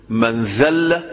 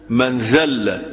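No difference in how they are said.

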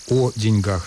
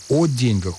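First: The stress is on the last syllable. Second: The stress is on the first syllable. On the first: This is the form the dictionary gives first. The speaker calls it right. "сначала дает формы" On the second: This form is outdated and survives only in a saying. The speaker calls it wrong. "устарело и сохраняется лишь в поговорке"

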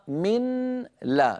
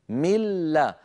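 First: The n is heard separately before the l. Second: The n merges into a doubled l sound. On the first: "كان النطق قبل الإدغام من لا" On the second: "بعد أن أدغمنا النون في اللام صار النطق بلام مشددة"

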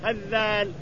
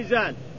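First: It has a doubled voiced th sound. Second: It has a light, single z sound. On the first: "وإن قلنا أنها بالذال لازم تشدد تقول هزال" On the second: "إن قلنا أنها بالزاء لازم تخفف يقال هزال"

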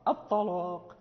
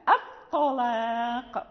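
First: The opening hamza is heavy and thickened. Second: The opening hamza is light and thin. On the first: The speaker calls it wrong. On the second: The speaker calls it right.

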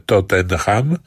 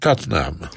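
First: The name is pronounced in a Polish way. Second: The name is pronounced in an English way. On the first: This is how the name is said in Poland. "wymawia się w Polsce Tottenham" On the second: This is how the name is said in England. "powinien się wymawiać jego zdaniem Tottenham"

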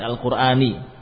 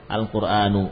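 First: The word ends with an 'i' vowel. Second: The word ends with an 'u' vowel. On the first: The speaker calls it wrong. "Kenapa di kasrah? Enggak ada dalilnya" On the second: The speaker calls it right. "Dhammah saja"

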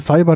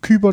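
First: The word does not begin with a k sound. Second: The word begins with a hard k sound. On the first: It sounds hard and aggressive. The speaker calls it wrong. "Cyber, das klingt so, das ist so aggressiv" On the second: It sounds a bit cute. The speaker calls it right. "Kyber, das klingt so ein bisschen niedlich"

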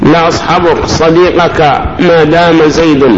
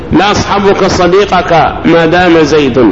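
Both takes have the same delivery.

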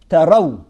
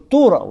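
First: The first vowel is an 'a' sound. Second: The first vowel is a 'u' sound. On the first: You know for certain. "если через фатху" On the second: You are inclined to think so. "Или если через дамму"

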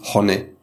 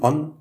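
First: The name is said the German way. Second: The name is said the French way. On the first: "wenn man Deutscher ist, dann sagt man Honne" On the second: "Die Franzosen"

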